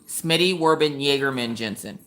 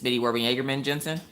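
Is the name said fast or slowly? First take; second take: slowly; fast. First: The name is said at a slow pace. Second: The name is said at a quick pace.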